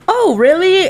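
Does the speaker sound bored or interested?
interested. The tone is eager and engaged. The listener is keen to hear the bad news. "the tone is they, completely different"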